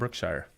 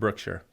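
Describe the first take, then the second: First: The ending is said like 'the Shire'. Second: The ending is not said like 'the Shire'. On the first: It is a personal twist borrowed from a fantasy story. The speaker calls it wrong. "but I just like to call it Brookshire" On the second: This is how the town's own people say it. The speaker calls it right. "I one hundred percent believe it's called Brookshire"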